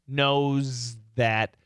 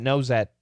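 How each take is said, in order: First: The phrase is said slowly and clearly. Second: The phrase is said quickly and run together. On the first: "I'll go slowly" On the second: "then faster and faster"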